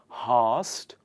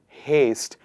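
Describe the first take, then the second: First: The vowel is a short 'a' sound. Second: The vowel is a long 'ay' sound. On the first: The speaker calls it wrong. "It's not hast" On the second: The speaker calls it right. "It is haste with an A sound"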